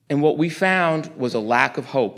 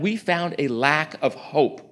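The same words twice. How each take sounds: First: Said in the usual way. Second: We found a lack of hope, slowly, each word weighed; slow weighty repeat. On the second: Real, not acted. Repeating it to the church, slow and grave. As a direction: let it land slowly and heavily.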